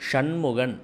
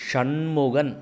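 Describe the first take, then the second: The two takes are said the same way.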